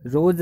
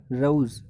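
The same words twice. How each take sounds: First: "रोज" with one pure O, "rohz"; plain long O. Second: "रोज" with a uh-oo glide, "ruh-ooz"; diphthong AU. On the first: Teacher shows students the mistaken reading, plain long O. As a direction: say "रोज" with no glide in the vowel. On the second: Teacher models the corrected word for students, gliding diphthong. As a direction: glide through the vowel of "रोज". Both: Shown as a demonstration. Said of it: "रोज नहीं होता".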